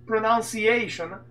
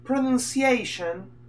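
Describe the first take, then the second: First: "Pronunciation" with NAUN in the second syllable; slow "Pronunciation", said pro-naun-see-AY-shon; copied pronunciation. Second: "Pronunciation" with NUN in the second syllable; slow "Pronunciation", said pro-nun-see-AY-shon; questioned pronunciation. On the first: Retold or imitated. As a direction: echo "Pronunciation" slowly as pro-NAUN-ciation. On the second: Shown as a demonstration. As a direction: sound out "Pronunciation" slowly as pro-NUN-ciation. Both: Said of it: "ma ha sbagliato a dire pronunci-, pronunciation".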